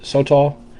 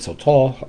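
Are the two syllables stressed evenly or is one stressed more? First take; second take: evenly; one stressed. First: Both syllables carry about equal stress. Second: One syllable is clearly stressed more. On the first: "with like really no accent on either ones" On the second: "I have in the past said Sotal"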